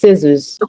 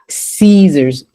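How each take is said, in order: First: The first vowel is short. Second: The first vowel is long. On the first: The speaker calls it right. "it's a short vowel" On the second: The speaker calls it wrong. "It's not"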